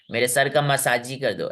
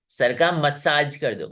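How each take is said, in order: First: मसाजी ending in a spoken "ee"; wrongly sounded E. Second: मसाज ending cleanly on the j sound; silent final E. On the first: Teacher quoting how nobody talks, मसाजी with extra ee. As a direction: voice the silent e, making it मसाजी. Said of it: "ऐसा नहीं ना बोलते हो". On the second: Teacher showing how we say it, मसाज without final ee. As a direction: slowly, close मसाज on J with no vowel after. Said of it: "हम बोलते हैं". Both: Shown as a demonstration.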